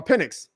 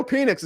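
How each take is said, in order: First: "Penix" said as PEN-ix; self-corrected surname. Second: "Penix" said as PEE-nix; mispronounced surname. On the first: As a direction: correct "Penix" to a short first vowel. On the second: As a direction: say "Penix" with a long ee first. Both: Real, not acted. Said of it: "I gotta learn to say his name".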